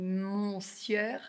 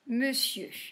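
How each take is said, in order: First: The first syllable is pronounced as written, 'mon'. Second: The first syllable is reduced to 'meu'. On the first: The speaker calls it wrong. "si on le lit, on le lit monsieur" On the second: The speaker calls it right. "ça a été déformé, on dit monsieur"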